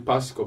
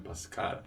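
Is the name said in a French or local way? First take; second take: local; French. First: The name is said in a local, non-French way. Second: The name is said the French way. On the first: The speaker calls it wrong. "Most people say Pascal" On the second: The speaker calls it right. "it's supposed to be Pascal"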